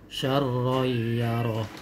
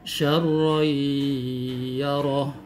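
First: The nasal sound is cut short, not held. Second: The nasal sound is held for a long time. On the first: The speaker calls it wrong. "tidak boleh membaca syarroyaroh" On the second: The speaker calls it right. "Atau juga misalnya syarroyaroh"

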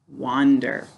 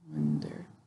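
First: The first syllable is said like 'wan', as in 'want'. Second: The first syllable is said like 'won', rhyming with 'sun'. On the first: The word is said the way it is spelled, to help with spelling. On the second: This is the everyday way the word is said.

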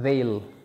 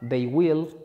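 First: The words are contracted into one syllable. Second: Both words are said in full. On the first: It is the informal way to say it. "pero también se usan they'll" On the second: It is the formal way to say it. "Decirlas en su manera formal"

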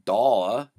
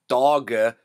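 First: The middle consonant is a y sound. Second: The middle consonant is a hard g sound. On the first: The speaker calls it right. "so it makes a Y sound" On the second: The speaker calls it wrong. "it's not Dawga"

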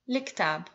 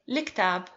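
First: It begins with a reduced 'li' sound. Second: The same.

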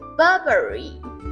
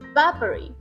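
First: The R sounds are pronounced. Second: The R sounds are dropped, British style.

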